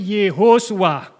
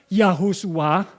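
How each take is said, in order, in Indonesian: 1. Suku kata pertama diucapkan 'yeh'. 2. Suku kata pertama diucapkan 'yah'. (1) "Yosua ini Yehosua" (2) "bukan Yahosua"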